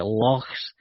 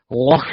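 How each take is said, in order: First: "lochs" said as Dave Schrader says it; imitated pronunciation. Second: "loch" with an exaggerated throaty ch; "loch" said like a Klingon, louder; phlegmy loch. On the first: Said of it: "with Dave Schrader when he says". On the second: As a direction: hack the end of "loch" like bringing up phlegm. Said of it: "as if they're bringing up phlegm".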